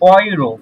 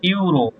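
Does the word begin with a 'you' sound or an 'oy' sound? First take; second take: oy; you. First: The word begins with an 'oy' sound. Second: The word begins with a 'you' sound. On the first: The speaker calls it right. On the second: The speaker calls it wrong.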